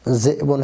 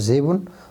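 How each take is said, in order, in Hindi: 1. Glottal catch पहले अक्षर को बंद करता है। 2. ग्लोटल कैच की जगह एक लंबा स्वर आता है। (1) "ये असल है" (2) "हर्फ़ इल्लत के मुवाफ़िक़ कर दिया जाता है"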